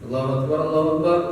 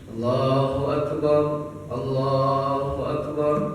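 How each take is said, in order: First: The phrase is said quickly and hurriedly. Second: The phrase is said slowly and unhurriedly. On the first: It sounds like the shorter call before prayer. The speaker calls it wrong. "bukan ... jangan seperti qomat" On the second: It carries clearly to people far away. The speaker calls it right. "Jadi tartil"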